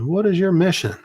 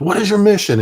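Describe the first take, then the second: First: Higher, pointed demand from a sergeant; a sergeant testing a private, demanding question; stern sergeant. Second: Higher and louder, impatient demand; angry sergeant. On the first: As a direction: quiz the private like his sergeant would. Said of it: "he said". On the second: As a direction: repeat the question as he gets pissed. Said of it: "he started getting pissed". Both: Retold or imitated.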